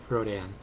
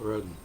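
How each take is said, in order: First: The name is said the American way. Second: The name is said the European way. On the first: "Americans tend to pronounce it Rodan" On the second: "Europeans tend to pronounce it Rodin"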